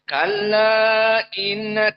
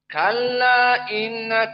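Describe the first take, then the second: First: The final vowel of kalla is held moderately long. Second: The final vowel of kalla is held briefly. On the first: "dibaca empat" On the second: "hanya dua harokat. Mukhtasar"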